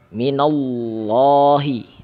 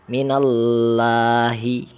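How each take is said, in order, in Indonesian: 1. Huruf l pada Allah dibaca tebal dan berat. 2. Huruf l pada Allah dibaca tipis dan ringan. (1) "Allahnya dibaca tebal" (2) "contoh yang salah"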